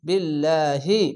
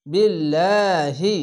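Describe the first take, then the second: First: বিল্লাহি with long লা; recited tajweed word. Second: বিল্লাহি chanted very slowly, লা stretched, light l; recited tajweed word. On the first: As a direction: say বিল্লাহি with a stretched লা. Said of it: "reads word after spelling it". (বিল্লাহি টেনে পড়া) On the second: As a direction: draw out লা in বিল্লাহি. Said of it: "খাড়া জবর এক আলিফ টেনে পড়বেন।". (বিল্লাহি ধীরে, লা টেনে, পাতলা উচ্চারণ) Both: Shown as a demonstration.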